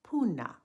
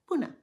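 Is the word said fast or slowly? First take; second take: slowly; fast. First: The word is said slowly. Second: The word is said a bit faster. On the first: "Say it slowly after me" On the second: "Now say it a bit faster"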